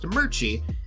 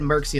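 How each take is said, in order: First: The middle consonant is a 'ch' sound. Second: The middle consonant is a 'ks' sound. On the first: The speaker calls it right. "It is actually pronounced Merchie" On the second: The speaker calls it wrong. "I said Merxy in the first video"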